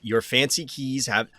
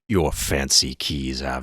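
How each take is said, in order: First: It is read in the speaker's normal voice. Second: It is read in a put-on character voice. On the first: The speaker calls it wrong. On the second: The speaker calls it right.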